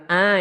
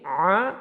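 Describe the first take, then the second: First: "A" as a plain open vowel; wrong plain a. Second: "A" pressed from the throat; pressed ain. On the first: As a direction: say "A" lightly from the mouth. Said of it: "Bukan A ya". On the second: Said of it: "itu harus ditekan dari sini". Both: Shown as a demonstration.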